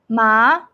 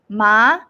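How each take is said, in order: Both takes have the same delivery.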